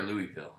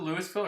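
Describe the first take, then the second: First: "Louisville" with silent S, as LOO-ee-vil; alternative pronunciation. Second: "Louisville" with the S sounded, as LEW-iss-vil; pronunciation check. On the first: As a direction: say "Louisville" like Louie plus ville. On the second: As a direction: say "Louisville" like Lewis plus ville. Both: Shown as a demonstration. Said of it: "Is it Louisville or Louisville?".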